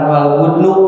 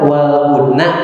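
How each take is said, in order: First: The last word ends with a 'u' vowel. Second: The last word ends with an 'a' vowel. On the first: The word is the subject. The speaker calls it wrong. "bukan wal budnu" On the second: The word is the object of the verb. The speaker calls it right. "dibacanya kan wal budna"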